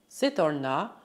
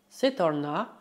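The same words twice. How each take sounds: The two takes are said the same way.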